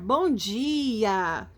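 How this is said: It is said with enthusiasm.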